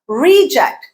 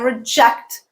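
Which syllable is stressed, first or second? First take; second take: first; second. First: The stress is on the first syllable. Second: The stress is on the second syllable. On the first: It is a noun. "that item was a reject" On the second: It is a verb. "I reject that statement"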